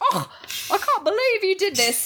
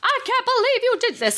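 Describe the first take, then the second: First: It is said in a Scottish accent. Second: It is said in the speaker's plain accent.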